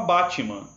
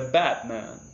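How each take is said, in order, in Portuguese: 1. É falado do jeito do português brasileiro. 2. É falado do jeito do inglês. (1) "A gente fala Batman" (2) "Mas é Batman"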